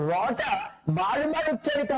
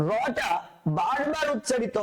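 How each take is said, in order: Both takes have the same delivery.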